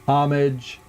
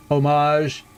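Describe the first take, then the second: First: "homage" as OM-ij, stressed first syllable; Anglicized pronunciation. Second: "homage" as oh-MAHZH; French-style pronunciation. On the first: Player listing ways he's heard it, "homage" as OM-ij. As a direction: say "homage" with silent H and a short -ij ending. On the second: Player listing ways he's heard it, "homage" as oh-MAHZH. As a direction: say "homage" with a long second syllable ending in zh. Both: Shown as a demonstration. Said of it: "I've heard it".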